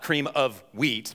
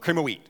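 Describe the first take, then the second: First: The three words are said clearly and separately. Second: The three words are blurred together into one. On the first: This is the actual name of the food. The speaker calls it right. "Not cream of wheat" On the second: This is how a child misheard and repeated the name. The speaker calls it wrong. "but cream of wheat. ... It just got kind of morphed"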